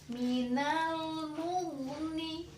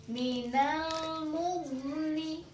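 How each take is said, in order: No difference in how they are said.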